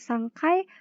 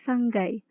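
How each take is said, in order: First: The syllable after san starts with a k sound. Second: The syllable after san starts with a g sound. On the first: The speaker calls it wrong. "bukan sangkai" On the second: The speaker calls it right. "tetapi sanggai. Menggunakan huruf G bukan huruf K"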